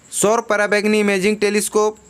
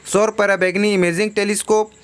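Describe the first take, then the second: No difference in how they are said.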